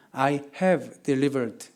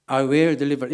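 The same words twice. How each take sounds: First: "have" set apart and weighted, very slow; slow, deliberate emphasis on "have"; stress on have. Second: "will" offered as the rejected wording; "will" marked as the wrong tense; contrast on will. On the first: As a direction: spell out "I have delivered" word by word, stressing have. Contrasts past with future wording. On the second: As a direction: quote "I will deliver" briskly, leaning on will. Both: Shown as a demonstration.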